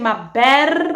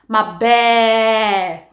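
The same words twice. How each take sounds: First: The final R sound is clearly pronounced. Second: The final R sound is dropped. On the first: "instead of saying my bear" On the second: "I actually tend to omit any word that ends with an R"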